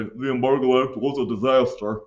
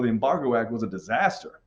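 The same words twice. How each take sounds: First: Put-on voice parroting a simplistic answer; mock rote answer. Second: Said in the usual way. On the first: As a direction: imitate a student just saying it. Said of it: "I don't want your if it didn't to just say". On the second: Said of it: "I want you guys to know".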